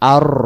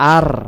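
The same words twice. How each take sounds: First: The vowel is said with rounded lips. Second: The vowel is said with open, spread lips. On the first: The speaker calls it right. "মুখ গোল হয়ে গেছে" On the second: The speaker calls it wrong. "মুখটা যদি দেখেন যে ফাঁকা হয়, তাহলে সহি উচ্চারণ না"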